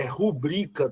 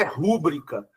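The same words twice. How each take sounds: First: RuBRIca, com a força na sílaba BRI; "rubrica" dito como paroxítona, ru-BRI-ca; tônica correta em BRI. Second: RÚbrica, com a tônica na primeira sílaba; "rúbrica" dito como proparoxítona, RÚ-bri-ca; stress errado em RÚ. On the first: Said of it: "é rubrica". (sílaba forte no meio de "rubrica": BRI) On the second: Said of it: "não é rúbrica". (sílaba forte no começo de "rúbrica": RÚ) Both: Shown as a demonstration.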